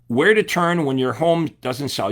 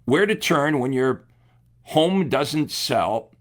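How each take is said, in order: First: Said in the usual way. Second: Headline read out slowly, word by word. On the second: Shown as a demonstration. Coach slowly reading the ad headline to agents, slow and deliberate. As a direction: draw out home doesn't sell slowly. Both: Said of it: "But check this one out".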